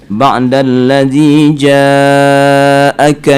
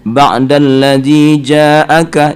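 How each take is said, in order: First: The vowel in 'ja' is drawn out long. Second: The vowel in 'ja' is held only briefly. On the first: The speaker calls it right. "itu mat wajib itu ya, lebih panjang" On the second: The speaker calls it wrong. "wajib jadi kurang"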